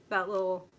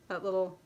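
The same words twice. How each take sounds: The two takes are said the same way.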